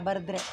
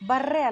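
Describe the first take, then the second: First: The middle d sound is pronounced. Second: The middle d sound is dropped. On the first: The speaker calls it right. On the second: The speaker calls it wrong. "ಬರ್ರೆ ಅಲ್ಲ"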